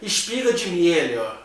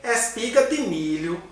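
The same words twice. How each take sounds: First: It is said with a Rio (carioca) accent. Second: It is said with a Pernambuco accent.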